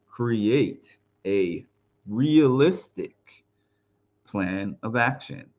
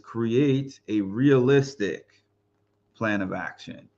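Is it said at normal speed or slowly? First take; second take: slowly; normal speed. First: It is said slowly. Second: It is said at normal speed.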